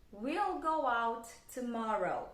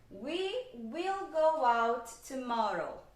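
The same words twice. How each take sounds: First: "We'll" run together as one short syllable, slow; contracted we'll. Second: "We will" said out in full, slow and separate; full form will. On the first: Teacher shows the students the contracted "We'll". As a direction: squeeze "We'll" into one sound. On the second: Teacher shows the students the uncontracted "We will". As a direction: spell out "will" as its own word, not contracted. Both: Shown as a demonstration.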